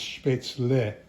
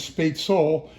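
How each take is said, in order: First: The word ends with a separate 'leh' sound. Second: The word ends with an 'el' sound. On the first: The speaker calls it right. "the proper pronunciation is spätzle" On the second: The speaker calls it wrong. "If it were intended to be sp- uh, pronounced as spätzle, it would be el"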